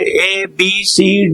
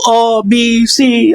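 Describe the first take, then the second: First: The first letter is said as a full 'ay'. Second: The first letter is said as a short 'uh'. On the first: The speaker calls it right. "अगर अकेला लिखा हुआ है ए, तब तो ए ही पढ़ोगे" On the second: The speaker calls it wrong. "ऐसा नहीं भाई।"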